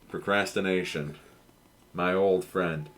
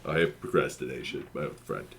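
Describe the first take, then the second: First: It is said in his own natural voice. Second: It is said in a put-on cartoon character voice.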